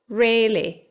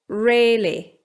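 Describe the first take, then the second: No difference in how they are said.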